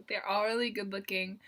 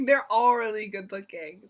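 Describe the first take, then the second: First: Said in the usual way. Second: Laughing gush. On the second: Real, not acted. Vlogger gushing about the Teen Top members, laughing.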